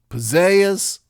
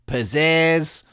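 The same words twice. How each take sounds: First: The second vowel is a Southern gliding eh sound. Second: The second vowel has a Wisconsin-style eh sound. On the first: "the Southern diphthonged eh" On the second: "the Wisconsin eh"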